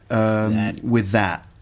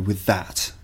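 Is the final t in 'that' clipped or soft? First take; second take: soft; clipped. First: The final t is softened and barely released. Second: The final t is crisp and clearly clipped. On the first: "in North America, they probably soften the t a little bit" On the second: "if you want to emphasize the British accent, you have to go"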